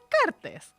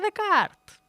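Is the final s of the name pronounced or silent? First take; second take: pronounced; silent. First: The final s sound is clearly pronounced. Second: The name ends without a final s sound. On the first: The speaker calls it wrong. "no se dice Descartes" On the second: The speaker calls it right. "se dice Descartes"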